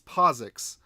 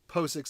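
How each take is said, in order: First: The start sounds like 'positive'. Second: The start does not sound like 'positive'. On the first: The speaker calls it right. "It's POSIX. ... it's supposed to be positive" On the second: The speaker calls it wrong. "I keep on saying POSIX"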